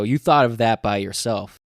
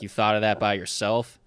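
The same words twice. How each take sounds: First: It is said flatly like a plain statement. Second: It is said with a questioning, rising tune. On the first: The speaker calls it wrong. "so I'm just saying it wrong" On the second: The speaker calls it right. "it's kind of like a question"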